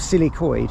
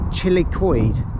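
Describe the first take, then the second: First: The name begins with an s sound. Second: The name begins with a ch sound. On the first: The speaker calls it right. "Silicoid. That's how you say it" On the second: The speaker calls it wrong. "I thought it was chilly"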